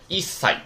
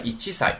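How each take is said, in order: First: 一塞 with a held stop before 塞; geminate sound change. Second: 以七sai in three beats, no stop before sai; full reading, no geminate. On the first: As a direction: drop the "chi" in 一塞, doubling the s. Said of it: "你就要把那个七变成促音啊". (一塞，中间读成促音) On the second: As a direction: say 以七sai with the 七 fully sounded. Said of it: "正常来说我们是不是应该是以七sai呀". (以七sai，“七”完整读出，不促音) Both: Shown as a demonstration.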